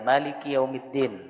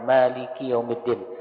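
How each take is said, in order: First: The vowel after the first m is short. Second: The vowel after the first m is long. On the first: "dari mimnya dipendekkan" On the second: "dipanjangkan dua harokat"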